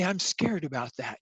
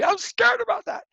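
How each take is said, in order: First: It is said in a calm, matter-of-fact tone. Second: It is said in a dramatic, emotional tone. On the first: "in the same tone of voice as you might say the time of day" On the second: "You don't need to say"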